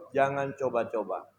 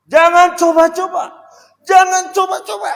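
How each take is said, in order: First: Said in the usual way. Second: High, loud stern warning; shouted warning. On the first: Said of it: "Harus mengikuti nada saya". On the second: Shown as a demonstration. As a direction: shout it like a threat. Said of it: "Ada beda loh itu". (peringatan keras dengan teriakan)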